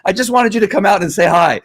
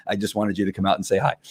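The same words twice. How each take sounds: First: High, louder happy-dog voice on "I just wanted you to come out and say hi"; flamboyant dog voice. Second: Said in the usual way. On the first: Retold or imitated. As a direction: gush it as the eager dog. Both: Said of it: "a little bit of flamboyant".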